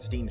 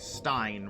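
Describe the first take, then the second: First: The vowel sounds like 'ee'. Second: The vowel sounds like 'eye'. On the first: The speaker calls it wrong. "rather than Steen" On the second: The speaker calls it right. "Stein rather than Steen"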